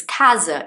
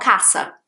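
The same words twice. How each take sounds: First: "casa" with a buzzed Z sound for the s; correct Portuguese casa. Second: "casa" with a hissed double-S sound in the middle; wrong casa. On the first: Teacher correcting a Portuguese word, "casa" with voiced Z. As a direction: say "casa" as "caza". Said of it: "it's not casa". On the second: Teacher showing the mistake, "casa" with unvoiced S. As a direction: say "casa" as "cassa", no buzz. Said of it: "Casa is wrong". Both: Shown as a demonstration.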